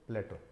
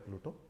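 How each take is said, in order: First: The first vowel sounds like 'ay' in 'play'. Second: The first vowel sounds like 'oo' in 'blue'. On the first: The speaker calls it right. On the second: The speaker calls it wrong.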